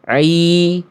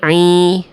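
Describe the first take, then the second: First: The sound comes out through the mouth only. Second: The sound leaks through the nose. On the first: The speaker calls it right. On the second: The speaker calls it wrong. "jangan sampai"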